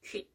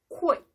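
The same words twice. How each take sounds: First: The lips stay still without a glide. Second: The lips round and glide into the vowel. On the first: The speaker calls it wrong. "not quit" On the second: The speaker calls it right. "Your mouth goes on in the center, to the center, and then moves on"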